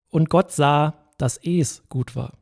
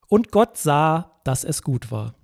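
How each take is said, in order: First: The sentence is read with shifted, marked emphasis. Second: The sentence is read with plain, neutral emphasis.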